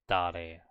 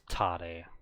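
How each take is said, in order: First: It begins with a soft D sound. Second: It begins with a hard T sound. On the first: The speaker calls it right. "we're pronouncing it very softly, like dare" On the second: The speaker calls it wrong. "not tare"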